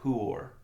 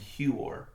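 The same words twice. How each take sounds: First: It starts with a plain 'hoo' sound. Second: It starts with a 'hyoo' sound. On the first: The speaker calls it right. "it's actually Huor. There's no Y sound in there" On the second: The speaker calls it wrong. "you see how you were putting like the Y in there"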